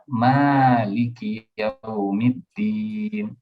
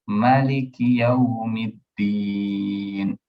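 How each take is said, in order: First: The first vowel of Maliki is held long. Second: The first vowel of Maliki is kept short.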